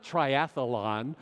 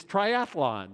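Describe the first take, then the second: First: "triathlon" mispronounced as tri-ath-a-lon; slowly sounded "triathlon" with an added middle vowel; extra syllable. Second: "triathlon" as tri-ath-lon; slowly corrected "triathlon", no vowel after the th; no extra syllable. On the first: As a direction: slip an uh between "th" and "lon" in "triathlon". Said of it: "It's not triathlon". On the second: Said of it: "It's two syllables". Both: Shown as a demonstration.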